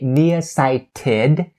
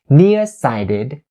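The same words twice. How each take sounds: First: The T in 'sighted' is a clear T. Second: The T in 'sighted' is a flapped D. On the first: The speaker calls it wrong. "You don't say nearsighted" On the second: The speaker calls it right. "you turn it into the flat D sound"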